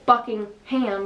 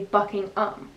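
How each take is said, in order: First: The last part is said fully as ham. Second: The last part is reduced to um. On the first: The speaker calls it wrong. "you don't say Buckingham" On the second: The speaker calls it right. "you say Buckingham"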